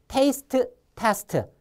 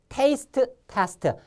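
Both takes have the same delivery.

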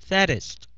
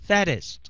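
The two takes are said the same way.

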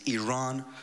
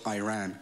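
First: The name is pronounced the native Iranian way. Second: The name is pronounced the American way. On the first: The speaker calls it right. "Our country is named Iran" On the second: The speaker calls it wrong. "you're pronouncing our country's name wrong"

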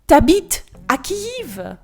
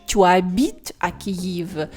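First: The vowel of tu is dropped entirely. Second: The vowel of tu is fully pronounced. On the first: "Так легше і простіше" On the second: "ніж"

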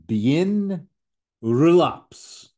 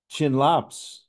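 First: It starts with a b sound, extra syllables. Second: It starts with a ch sound, two syllables.

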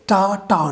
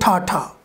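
First: The t has no puff of air. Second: The t has a strong puff of air. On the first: The speaker calls it right. "So we will say ta ta" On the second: The speaker calls it wrong. "not ta ta"

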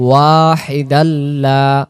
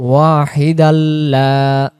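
Both takes have the same delivery.

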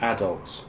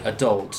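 First: It is said with a British pronunciation. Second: It is said with an American pronunciation. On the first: "instead of adult" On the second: "Americans say adult"

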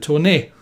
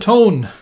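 First: The name is said as two syllables. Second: The name is said as one syllable. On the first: The speaker calls it right. "This is the Tone" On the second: The speaker calls it wrong. "I hope you cringed as much as I have, because this is not the Tone"

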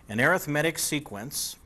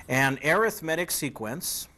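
The two takes are said the same way.

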